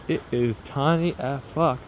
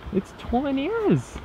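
First: Said in the usual way. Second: Soft, high, drawn-out squeak; high-pitched squeal. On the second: Real, not acted. Vlogger coos over the tiny village, high soft squeal. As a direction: squeak it slowly in tiny-voiced delight.

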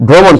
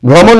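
First: ভ্রমণ with a closed "o", "bhromon"; correct pronunciation demo. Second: ভ্রমণ with an open "aw", "bhrawmon"; wrong pronunciation demo. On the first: Teacher answering what it should be, ভ্রমণ with closed "o". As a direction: say ভ্রমণ as "bhro-mon", rounded o. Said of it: "এটা কি হবে?". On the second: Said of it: "ভ্রমণ না". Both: Shown as a demonstration.

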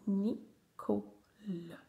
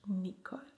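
First: Nicole split as "ni - co - le"; syllable by syllable. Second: Said in the usual way. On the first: Shown as a demonstration. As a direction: sound out Nicole slowly in three pieces. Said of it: "faire les syllabes". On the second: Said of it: "coller les syllabes".

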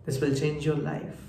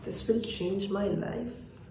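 First: Slow, softened quoted voice; quoted soft promise. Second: Very slow, soft, higher-pitched musing; hushed echo. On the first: Retold or imitated. Girl with headphones offering him a song, soft and slow. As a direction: say it slowly and softly, as a promise. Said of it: "headphones খুলে বলল". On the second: Acted. Narrator echoing the girl's promise to himself, hushed and slow. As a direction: let it drift out slowly, barely voiced.

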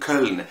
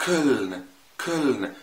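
First: كولن said with a rounded German ö; كولن بـ ö مضمومة صح; correct Köln. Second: كولن said with a plain open o, the wrong way; كولن بـ o عادية غلط; wrong Köln. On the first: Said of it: "أنا بقول كولن". (نطق كولن الصحيح بالأوملاوت) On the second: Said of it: "ما قلتش كولن". (نطق كولن الغلط بـ o عادية) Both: Shown as a demonstration.

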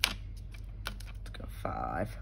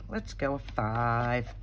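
First: Slow unvoiced mutter, much lower; whispered mutter. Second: Said in the usual way. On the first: Real, not acted. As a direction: breathe it to yourself slowly. Muttering to herself while stamping.

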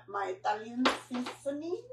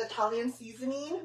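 First: Soft, badly faked Italian accent; poor Italian accent. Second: Said in the usual way. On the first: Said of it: "a really poor attempt at an Italian accent". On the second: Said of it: "attempt at an Italian accent".

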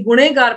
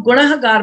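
First: ਗੁਨੇਗਾਰ with "ne" in the middle, no h; common misreading. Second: ਗੁਨਾਹਗਾਰ with a clear "nah" in the middle; correct reading. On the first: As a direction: drop the h in ਗੁਨੇਗਾਰ. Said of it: "ਕਈ ਗੁਨੇਗਾਰ ਪੜ੍ਹਦੇ". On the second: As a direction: sound out the h in ਗੁਨਾਹਗਾਰ. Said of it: "ਇਹਨੂੰ ਗੁਨਾਹਗਾਰ ਪੜ੍ਹਨਾ". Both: Shown as a demonstration.

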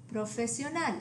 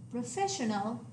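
First: Profesional with stress on final NAL; Spanish profesional, s sound and pure vowels; Spanish pronunciation. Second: Professional with a sh sound, stress on FESS; English professional, stressed on the second syllable; English pronunciation. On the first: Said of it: "stress on the last syllable". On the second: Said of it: "The English word". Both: Shown as a demonstration.

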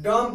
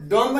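First: डॉम ending cleanly on M; silent B. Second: डॉम्ब with an audible final B; wrong reading, डॉम्ब ending in "mb"; B pronounced. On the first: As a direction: say डॉम with no B after the M. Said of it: "डॉम पढ़ेंगे". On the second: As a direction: sound out the B after M in डॉम्ब. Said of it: "डॉम्ब नहीं". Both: Shown as a demonstration.

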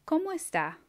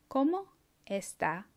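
First: Higher, lively question; bright question. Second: Each part said apart, slowly; teacher modelling word by word; slowed, split in two. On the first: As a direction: ask it warmly upward. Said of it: "say the words". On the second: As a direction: pause between the words. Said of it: "then I'll say it slower". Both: Shown as a demonstration.

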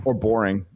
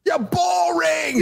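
First: Said in the usual way. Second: Very high, slow yelled boring; drawn-out shout. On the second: Shown as a demonstration. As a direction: drag out boring as a mock shout.

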